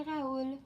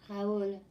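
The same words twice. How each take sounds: First: Said in the usual way. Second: French accent. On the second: Shown as a demonstration. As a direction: say Raoul the French way, a mild French accent. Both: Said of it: "That's how I would say it with my French accent".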